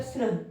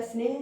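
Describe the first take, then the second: First: स्नेह mispronounced "snah", with an a in place of e; wrong pronunciation. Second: स्नेह said "sneh", with a long e; correct pronunciation. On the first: Teacher showing students a non-existent option, wrong pronunciation of स्नेह as "snah". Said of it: "अब स्नेह तो कुछ नहीं होता". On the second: Teacher reading out word options to students, correct pronunciation of स्नेह as "sneh". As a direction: say स्नेह with a clear "ay" vowel before the h. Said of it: "ये वाला ठीक है हमारा". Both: Shown as a demonstration.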